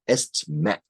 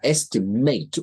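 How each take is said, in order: First: It is pronounced the way the noun is. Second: It is pronounced the way the verb is. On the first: It means a written guess or judgment. "Estimate is a noun" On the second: It means to guess or judge. "estimate would be a verb pronunciation"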